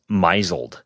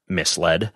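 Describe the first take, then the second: First: The word gets an unusual, misread pronunciation. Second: The word gets its usual, standard pronunciation. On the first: The speaker calls it wrong. "I would read the word misled as misled" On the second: The speaker calls it right. "it is actually pronounced misled"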